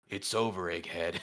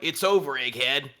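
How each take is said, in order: First: The voice is pitched at its lowest. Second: The voice is pitched somewhat lower.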